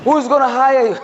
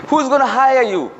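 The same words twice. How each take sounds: First: High, punched WHO'S in "Who's gonna hire you"; emphatic question. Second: "Who's" stressed high, falling at the end; repeated question. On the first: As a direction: land hard on "Who's" and let it fall. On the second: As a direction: say it again, pressing "Who's". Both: Shown as a demonstration.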